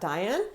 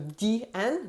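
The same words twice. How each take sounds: First: The name is said with an English pronunciation. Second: The name is said with a French pronunciation. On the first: The speaker calls it wrong. "not Diane" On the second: The speaker calls it right. "The letter I in French is I. So Diane"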